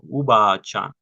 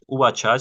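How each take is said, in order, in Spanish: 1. La vocal se alarga, se pronuncia larga. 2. La vocal se dice corta. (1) "como si hubiera una doble A o una doble E" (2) "no es"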